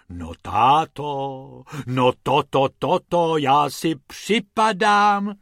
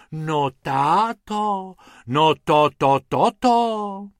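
First: Slow, drawn-out exclaiming "táto"; amazed exclaiming. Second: Slow, drawn-out gasping "táto"; amazed sighing. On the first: Mrs Pumpernagel exclaims in wonder at the car, slow. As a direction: gasp in awe again, stretched out. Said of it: "zvolala paní Pumpernaglová". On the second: Amazed Mrs Pumpernagel sighs to her husband, slow and loud. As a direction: sigh in awe, stretching each word. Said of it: "v jednom kuse vzdychala". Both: Acted.

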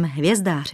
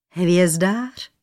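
First: Said in the usual way. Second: "Hvězdář" rising as a question; puzzled question. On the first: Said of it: "Hvězdář? Král nechápal". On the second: A narrator's reading. King questions the young man's trade, puzzled rise on "Hvězdář". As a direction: ask "Hvězdář" with the pitch lifting at the end. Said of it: "Král nechápal".

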